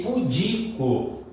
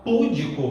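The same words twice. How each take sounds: First: Slow "Pudico" with DI drawn out; stress on DI. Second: "púdico" stressed on the first syllable; wrong stress on PÚ. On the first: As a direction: stretch the middle syllable of "Pudico". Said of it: "a sílaba tônica é o di". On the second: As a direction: punch PÚ in "púdico", leaving "dico" weak. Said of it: "você vai achar a sílaba errada". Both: Shown as a demonstration.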